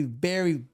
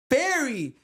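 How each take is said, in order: First: Said in the usual way. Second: "very" drawn out long with a pause before it; pause, then stretch "very" for emphasis; emphatic VERY. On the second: Real, not acted. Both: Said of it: "Emphasis on the very".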